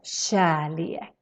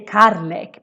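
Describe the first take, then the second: First: The word begins with a sh-like sound. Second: The word begins with a hard k sound. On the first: The speaker calls it right. "this is pronounced as kärlek" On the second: The speaker calls it wrong. "so you don't say karlek"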